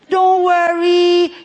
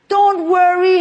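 First: It is said with a French accent. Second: It is said in the speaker's ordinary accent.

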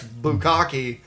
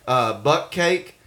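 First: It sounds like three syllables, bu-kka-ke. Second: It sounds like two syllables, buck cake. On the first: The speaker calls it right. "I found out that that's bukkake" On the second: The speaker calls it wrong. "for years I pronounced them buck cake"

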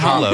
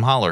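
First: The word ends with a rounded 'oh' vowel. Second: The word ends with an 'er' sound. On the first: This is the form written on the sign. "It says hollow on the sign" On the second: This is how people there actually say it. "when anybody refers to it, it's possum holler"

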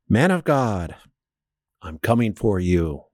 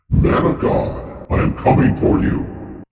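First: The line is read out flatly. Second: The line is said in a menacing voice.

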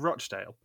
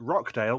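First: The middle consonant is a ch sound. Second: The middle consonant is a k sound. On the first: The speaker calls it right. "but it's actually Rochdale" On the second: The speaker calls it wrong. "She calls it Rockdale"

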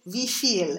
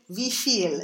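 First: The stress is on the second syllable. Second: The same.

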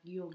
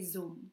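First: The word begins with a soft y sound. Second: The word begins with a buzzing z sound. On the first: It is the southern, more working-class accent. "the southern accent kind of like round out that sound" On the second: It is the northern, more formal accent. "So the northern accent, there's this more of an emphasis on enunciation"

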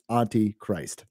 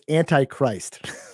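First: It sounds like auntie followed by Christ. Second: It sounds like the word antichrist. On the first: The speaker calls it right. "I should have pronounced it. It's Auntie Christ" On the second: The speaker calls it wrong. "And I'm an idiot"

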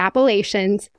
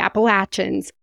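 First: The word is said the way outsiders say it. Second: The word is said the way locals say it. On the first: The speaker is not from the area. The speaker calls it wrong. "not the Appalachians" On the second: The speaker is from the area. The speaker calls it right. "the mountains that go through that are the Appalachians"

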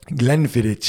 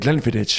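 First: The word is said slowly and deliberately. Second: The word is said at normal conversational speed.

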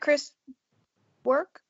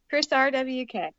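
First: The second name is said as one word. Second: The second name is said as separate letters. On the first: The speaker calls it wrong. "Do you not pronounce it Chris Work?" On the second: The speaker calls it right. "Sorry, Chris"

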